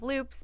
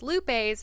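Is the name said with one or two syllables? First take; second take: one; two. First: The name is said with one syllable. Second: The name is said with two syllables. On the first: "instead of loops" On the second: "many people refer to them as lupes"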